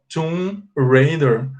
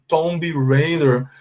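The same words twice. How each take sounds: First: The B at the end of tomb is silent. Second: The B at the end of tomb is pronounced. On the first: The speaker calls it right. "you don't pronounce the B and you say tomb. So you say Tomb Raider" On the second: The speaker calls it wrong. "Até os que tentam falar direitinho falam assim Tomb Raider, but you know in English it's incorrect"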